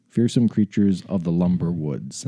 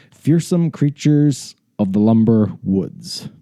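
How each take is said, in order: First: Said in the usual way. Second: Slow, drawn-out title reveal; grand title announcement. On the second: Shown as a demonstration. Host presents the book's title to listeners, slowly and grandly. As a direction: announce it slowly, stretching each word.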